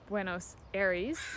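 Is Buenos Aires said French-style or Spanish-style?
French-style. It is said with a French-style pronunciation. This is a learner's distorted version. The speaker calls it wrong. "she butchered that too"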